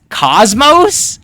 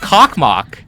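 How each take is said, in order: First: The name is said as cosmos. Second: The name is said as cock-mock. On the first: The speaker calls it right. "Apparently, it's pronounced Cosmos" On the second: The speaker calls it wrong. "It's not actually pronounced Cockmock"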